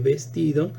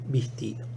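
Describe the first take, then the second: First: The first vowel is a mid E sound. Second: The first vowel is a closed I sound. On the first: "cierra la E de vestido" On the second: "en la I de vestido"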